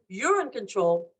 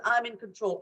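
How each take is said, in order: First: "you're" leaned on, the phrase drawn out slowly; stress on YOU'RE. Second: Said in the usual way. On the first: Shown as a demonstration. Helper to a frightened person, slow stress on "you're". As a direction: hand over control by stressing "you're". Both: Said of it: "The language has to shift".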